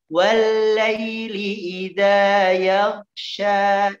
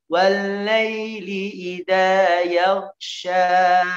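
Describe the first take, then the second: The two takes are said the same way.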